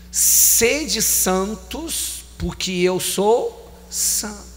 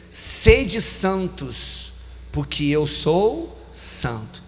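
Both takes have the same delivery.

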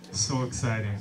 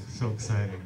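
Both takes have the same delivery.

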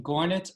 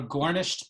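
First: GORNIT with no sh sound; shortened form. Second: Said in the usual way. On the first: Shown as a demonstration. Teacher showing forms of nisht, GORNIT without sh. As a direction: drop the sh, ending "gornit" on -it. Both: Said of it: "gornisht becoming gornit".

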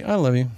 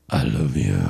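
First: Said in the usual way. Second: Much lower, sneering "I love you."; mocking deep voice. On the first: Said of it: "Or you can say". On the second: Shown as a demonstration. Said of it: "you can say".

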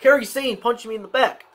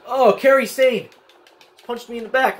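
First: Said in the usual way. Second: Real gamer indignation, a bit louder; indignant repeat. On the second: Real, not acted. Repeats outraged game report.

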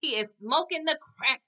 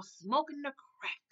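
First: Said in the usual way. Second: Slow, soft, drawn-out "Smoking the crack"; slow drawn-out repeat. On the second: Shown as a demonstration. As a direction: stretch "Smoking the crack" out slowly and softly for effect.

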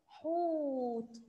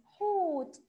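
First: حوت with the long و held very slowly; teacher drawing out حوت for children; stretched vowel. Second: حوت said higher and louder, short; teacher calling حوت to the kids; loud, bright repeat. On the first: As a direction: drag out the وو in حوت. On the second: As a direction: call out حوت to the class. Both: Shown as a demonstration. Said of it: "مد ايه حوت؟".

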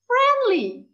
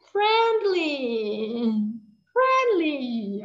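First: Friendly said high and loud; "Friendly" said loud and high, falling; model word for class. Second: Said in the usual way. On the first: Shown as a demonstration. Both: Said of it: "can you do it like this and say".

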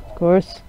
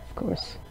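First: Said in the usual way. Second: Breathy whispered sarcasm; unvoiced deadpan whisper; whispered aside. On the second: Real, not acted. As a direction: mutter it under your breath, no voice.

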